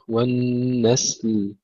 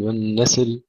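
First: والنسل slow, hissed s straight into l; still sin and lam. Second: والنسل said as wan-nasil; added vowel. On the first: Teacher giving the correct take, vowelless ending in والنسل. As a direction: hold س then sound ل in والنسل. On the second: Teacher warning students, extra vowel in والنسل. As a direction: wrongly slip a vowel between س and ل in والنسل. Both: Shown as a demonstration. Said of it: "نحافظ على سكون السين واللام".

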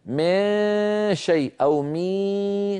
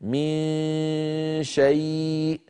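First: من شيء أو مي slowly with the tongue raised into a ي sound, pitched higher; wrong ikhfa demo. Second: من شيء very slowly, nasal dominant with only a faint mouth sound; correct ikhfa. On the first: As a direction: show the error of مي with a ي glide. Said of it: "كأنه دخل حرف الياء على النطق". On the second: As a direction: hum the نون of من into شيء, no ي. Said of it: "النطق الصحيح هكذا". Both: Shown as a demonstration.

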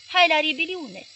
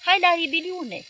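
First: Slow, high, loud holler repeated. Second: Slow, high, loud holler; a mob hollering in the street, high and loud. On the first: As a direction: bellow it once more like the crowd. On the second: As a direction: howl it like a rioting crowd. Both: Retold or imitated. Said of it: "ieșit înainte hăulind".

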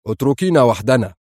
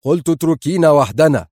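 First: Sharp, controlled order; curt command to leave. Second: Louder, higher repeated order; forceful, agitated dismissal; sharply irritable. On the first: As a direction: dismiss her sharply. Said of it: "يقول في حدة". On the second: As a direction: repeat the order with fraying temper. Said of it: "كرر في عصبية حادة". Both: A narrator's reading.

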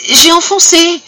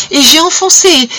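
First: Even higher, strained repeat of "j'ai enfoncé"; the confession cracks at its highest pitch; peak of horror. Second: High, strained confession building to a peak; rising horror. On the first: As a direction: push the repeat to its breaking point. Wife repeats the blow, higher still. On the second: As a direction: voice climbing high and tense. Wife confesses blinding her husband. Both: Acted.

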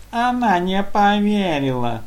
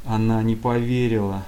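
First: High, slow squeak mimicking the excuse; squeaky mocking mimic. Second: Said in the usual way. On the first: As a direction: parrot it back in a mocking squeak. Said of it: "передразнивая оппонента, пропищало". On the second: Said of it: "попытался оправда-, оправдаться".

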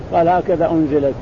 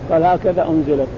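The two takes are said the same way.

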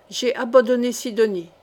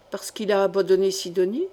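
First: "abandonné Sidonie" declared firmly, falling at the end; emphatic statement. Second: "abandonné Sidonie" lifted sharply at the end; questioning. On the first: Applicant confesses "abandonné Sidonie" as proof, emphatic falling statement. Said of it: "Magloire poursuivit avec chaleur". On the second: Intendant queries "abandonné Sidonie", rising question. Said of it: "demanda Feydeau". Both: A narrator's reading.

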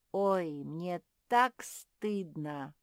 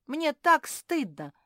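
First: Slow, loud, drawn-out groan; theatrical groan of remorse; moaned shame. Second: High, loud, emphatic confession; impassioned cry of shame; exclaimed shame. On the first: A narrator's reading. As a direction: moan it with embarrassment. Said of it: "простонала ежиха". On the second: Acted. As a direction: burst out with embarrassment.

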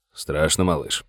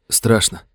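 First: Low, soft, gentle asking; quiet question. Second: Said in the usual way. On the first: Acted. Sheriff softly asking his frightened deputy, hushed. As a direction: ease the boy's fear quietly.

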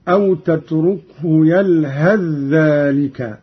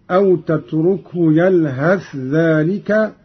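First: "يلهث ذلك" merged as yalhadh-dhālika; fuse the th of "يلهث" into a doubled dh of "ذلك"; idgham. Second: "يلهث ذلك" with a clear th before the dh; izhar. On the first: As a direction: recite "يلهث ذلك" run together with one long dh. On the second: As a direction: keep "يلهث" and "ذلك" separate: yalhath dhālika. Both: Shown as a demonstration. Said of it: "بالإظهار والإدغام هكذا".

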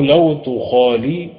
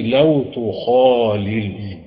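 First: تخالي ending in a long "lii". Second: تخالل with a second "l" closing it; double lam in تخالل. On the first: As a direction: end تخالي on an open long vowel. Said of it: "وقوله لو تخالي أي لو تخالل". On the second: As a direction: finish تخالل on a repeated lam, "khaalil". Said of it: "فأبدل الياء من أحد حرفي التضعيف". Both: Shown as a demonstration.

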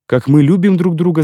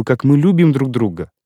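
First: Raised-pitch cry of joy; he echoes her words in a glad cry; exclaimed. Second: Said in the usual way. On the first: A narrator's reading. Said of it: "закричал я". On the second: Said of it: "Я хочу, чтоб он видел".

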